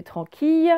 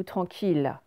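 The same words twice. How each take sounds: First: "tranquille" misread as tran-keey; "tranquille" ending in a y glide; wrong ye reading. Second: "tranquille" said tran-keel; "tranquille" ending like "ville", no glide; correct L reading. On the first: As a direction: say "tranquille" to rhyme with "fille". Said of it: "c'est pas le son ye". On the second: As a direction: say "tranquille" with a clear final L. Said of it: "c'est bien sûr tranquille". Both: Shown as a demonstration.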